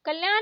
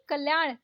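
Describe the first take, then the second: First: कल्याण ending in plain न; wrong dental N. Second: कल्याण ending in curled-tongue ण; correct retroflex ण. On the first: Teacher showing learners the mistake, dental-N कल्याण. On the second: Teacher correcting learners, retroflex कल्याण. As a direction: curl back for ण in कल्याण. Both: Shown as a demonstration. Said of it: "नहीं".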